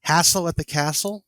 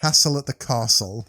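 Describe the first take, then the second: First: Castle with a flat American a, rhyming with Hassle; American accent. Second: Castle said kahstle, British long ah, no rhyme with Hassle; British accent. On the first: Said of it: "I want you to say it". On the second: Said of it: "Do it in a British accent". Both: Shown as a demonstration.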